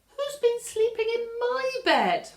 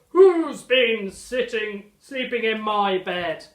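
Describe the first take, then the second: First: It is said in a plain, normal voice. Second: It is bellowed in a loud, deep voice.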